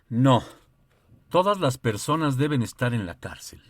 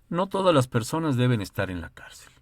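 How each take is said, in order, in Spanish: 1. Hay una pausa justo después de la primera palabra. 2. Se lee de corrido, sin pausa.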